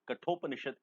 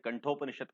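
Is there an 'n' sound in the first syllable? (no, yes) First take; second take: no; yes. First: The first syllable has no nasal sound. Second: The first syllable has a nasal 'n' sound. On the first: The speaker calls it right. "कठोपनिषद इसका सही उच्चारण है।" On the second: The speaker calls it wrong. "कुछ लोग इसे कंठोपनिषद कहते हैं, गलत है।"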